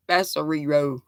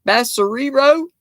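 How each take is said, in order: First: Basurero falling low and softer; stated. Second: Basurero rising high at the end; questioning. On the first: Repeating the word as a statement. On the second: Trying out a Spanish word. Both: Shown as a demonstration.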